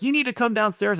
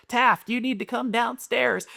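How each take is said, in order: First: Higher-pitched stern mom; imitated scolding mom. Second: High, drawn-out little-girl mock yell; echoing little sister. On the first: Mom disciplining her son from downstairs, imitated sternness. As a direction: act out a mother giving an order. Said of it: "so Whitney's like". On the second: Little sister echoing mom at her brother, mock yelling. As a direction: mimic a kid parroting mom, slow and high. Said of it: "she's yelling at Taft right behind Whitney".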